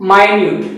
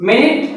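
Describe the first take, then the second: First: "మైన్యూట్" as my-NYOOT; "మైన్యూట్", the adjective meaning tiny, "main-yoot"; tiny-sense pronunciation. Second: "మినిట్" as MIN-it, short vowels; "మినిట్" with short i in both syllables; time-unit pronunciation. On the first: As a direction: say "మైన్యూట్" with long i and yoo. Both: Shown as a demonstration. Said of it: "pronunciation వేరేగా ఉంది".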